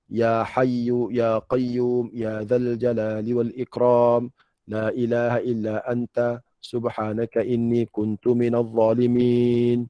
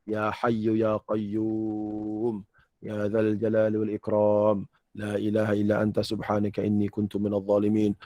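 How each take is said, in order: First: Slow, drawn-out supplication with lengthened endings; earnest prayer. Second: Low, quick-moving sample recitation of a supplication; sample prayer. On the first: Preacher praying for real with the congregation, earnest slow supplication. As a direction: plead steadily, stretching each phrase. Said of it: "Sungguh-sungguh minta lagu tu". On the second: Teacher showing jemaah how the prayer goes, sample recitation. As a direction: recite it lightly as an example. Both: Shown as a demonstration.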